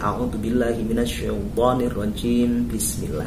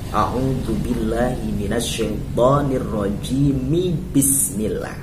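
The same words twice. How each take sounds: First: Rajim ends without a vowel before bismillah. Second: Rajim ends in a vowel linked into bismillah. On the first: The speaker calls it wrong. "Tidak boleh" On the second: The speaker calls it right. "maka harokat huruf akhir dari kalimat isti'adah ini harus dibaca"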